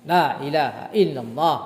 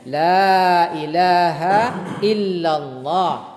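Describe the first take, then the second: First: It is said fast with a short la. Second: It is said slowly with a long la.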